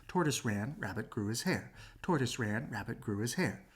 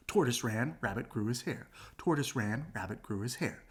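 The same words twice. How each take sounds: The two takes are said the same way.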